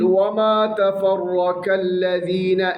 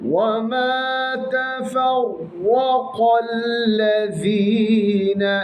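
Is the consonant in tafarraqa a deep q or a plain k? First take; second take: plain k; deep q. First: The consonant is a plain, front k. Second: The consonant is a deep, back-of-throat q. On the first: The speaker calls it wrong. "ശ്രദ്ധിച്ചില്ല എങ്കിൽ ... കാഫ് ഉച്ചരിച്ചങ്ങ് പോകും" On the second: The speaker calls it right. "ഇവിടെ ഖാഫ് ഉച്ചരിക്കുമ്പോൾ ശ്രദ്ധിക്കണം. തഫറഖ അല്ലദീന ഖാഫ് തന്നെ ഉച്ചരിക്കണം"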